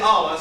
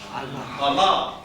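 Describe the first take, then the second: First: The stress is on the first syllable. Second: The stress is on the last syllable. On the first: The speaker calls it wrong. "Don't say Allah" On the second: The speaker calls it right. "say Allah. Can you see the accent mark?"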